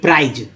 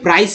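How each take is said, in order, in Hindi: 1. शब्द का अंत भनभनाती z वाली आवाज़ से होता है। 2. शब्द का अंत फुसफुसाती s वाली आवाज़ से होता है। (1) "यहाँ सी से स होता है ना कि ज होता है" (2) "ये प्राइस है ना कि प्राइज"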